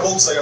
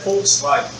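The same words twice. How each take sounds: First: The word is said the Portuguese way. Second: The word is said the German way. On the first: The speaker calls it wrong. "não é Volkswagen" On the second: The speaker calls it right. "é Volkswagen"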